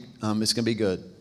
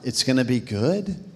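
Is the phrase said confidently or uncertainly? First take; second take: confidently; uncertainly. First: It is said firmly, as a confident statement. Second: It is said hesitantly, like a doubtful question. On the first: The speaker is sure it will be good. The speaker calls it right. "Say it with confidence" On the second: The speaker doubts it will be good. The speaker calls it wrong. "I felt like some of you were like"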